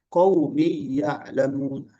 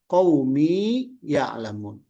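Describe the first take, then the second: First: The long vowel is lost, merged into the next word. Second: The long vowel of qaumi is held before ya'lamun. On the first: The speaker calls it wrong. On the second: The speaker calls it right.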